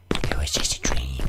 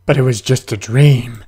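First: Hushed whisper to himself; whispered self-comfort. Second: Said in the usual way. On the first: Pretend. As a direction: breathe it as a secret. Reassuring himself in horror game.

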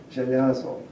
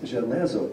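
First: Żelazo with an open ya in the middle, "zhe-LYA-zo"; archaic ya vowel. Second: Żelazo with a plain e in the middle, "zhe-LEH-zo"; ordinary e vowel. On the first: Lecturer showing an archaic feature, żelazo with middle ya. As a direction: say żelazo with ya, not e. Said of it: "but it is żelazo". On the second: Lecturer contrasting dialect forms, żelazo with middle e. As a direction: say żelazo with e, not ya. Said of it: "it's not just żelazo". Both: Shown as a demonstration.

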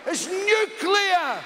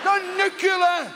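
First: "nuclear" sounded out slowly as "new-klee-ar"; correct, slow nuclear. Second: "nuclear" said as "nuke-yuh-ler", mocking; wrong nucular. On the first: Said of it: "Sound it out". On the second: Mocking Bush, "nuclear" said as "nook-yoo-lar". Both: Shown as a demonstration.

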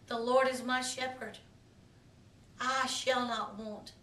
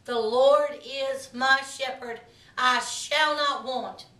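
First: Much softer, hushed "The Lord is my shepherd"; quiet, prayerful scripture; softly prayed verse. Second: Slow, weighty proclamation of "The Lord is my shepherd"; slow declared verse; proclaimed scripture. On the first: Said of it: "I pray for you today". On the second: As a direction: declare it slowly, leaning on "Lord" and "shall". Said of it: "That is a powerful statement". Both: Shown as a demonstration.

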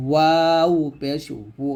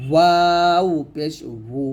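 First: ওয়াও পেশ ওউ again from the lips; careful repeat of ওউ; slow lip-rounded demo. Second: ওয়াও পেশ ওউ drawn out from the lips; teacher's slow demo of ওউ; slow lip-rounded demo. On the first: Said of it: "এরকম". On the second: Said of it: "এখানে ওয়াও উচ্চারণটা ঠোঁট থেকে নিয়ে আসতে হবে". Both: Shown as a demonstration.

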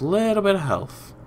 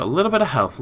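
First: "bit of health" lifted high then falling; playful repeat. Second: Said in the usual way. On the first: Real, not acted.

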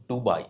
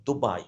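First: "দুবাই" slowly, with a hard retroflex D as in ডুবাই; wrong pronunciation demo. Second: "দুবাই" slowly, with the soft D; corrected pronunciation. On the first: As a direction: mistaken "দুবাই", tongue curled back on the D. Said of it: "not দুবাই". ("দুবাই" ভুল করে শক্ত ড দিয়ে) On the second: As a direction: model "দুবাই" with a lighter, forward-tongue D. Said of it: "দুবাই, not দুবাই". ("দুবাই" নরম দ দিয়ে ধীরে) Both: Shown as a demonstration.

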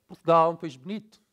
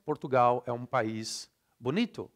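First: Fast, louder European Portuguese, vowels swallowed; European Portuguese accent. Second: Brazilian reading with full, even syllables; Brazilian Portuguese accent. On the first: Teacher contrasting with Brazil, fast reduced European Portuguese accent. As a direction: read it like someone from Portugal, syllables vanishing. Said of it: "A Portuguese would read this like". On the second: Teacher reading a sample phrase, Brazilian Portuguese accent. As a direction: read it like a Brazilian, every vowel sounded. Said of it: "I'll read like a Brazilian".

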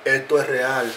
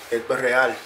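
Both takes have the same delivery.

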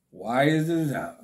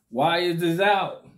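First: Said in the usual way. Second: Laughing. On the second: Real, not acted. Laughing repeat vs plain take.

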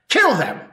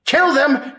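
First: Raised cry of kill them; shouted command. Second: Kill pitched high and loud, fever peak; higher, louder shouted command. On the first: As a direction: urge the mob to attack. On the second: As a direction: scream it at the mob, escalating. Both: Acted.

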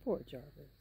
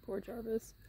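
First: Said in the usual way. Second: Whispered "Poor Jarvis", breathy and soft. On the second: Real, not acted. Owner whispering pity for her lonely horse, soft whisper.

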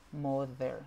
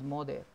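First: Tongue between the teeth on "mother"; correct th sound. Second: "mother" said with a hard D; "mother" as "moder"; wrong pronunciation. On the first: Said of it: "y no es mother". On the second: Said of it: "es mother". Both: Shown as a demonstration.

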